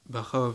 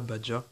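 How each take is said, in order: First: The middle consonant is an R-like sound. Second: The middle consonant is a J-like sound. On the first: The speaker calls it right. "je crois que ça se dit Barra" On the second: The speaker calls it wrong. "ça se dit pas Badja"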